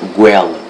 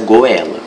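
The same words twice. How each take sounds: First: The 'o' glides into the 'e' in one syllable. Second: The 'o' and 'e' are split into separate syllables. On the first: The speaker calls it right. "você pronuncia goela" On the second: The speaker calls it wrong. "Essa palavra você não pronuncia goela"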